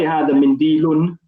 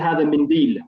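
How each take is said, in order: First: The last word ends with an added -un sound. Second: The last word ends sharply on the l sound. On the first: The speaker calls it wrong. "you shouldn't say hada mindilun" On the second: The speaker calls it right. "You should say hada mindil"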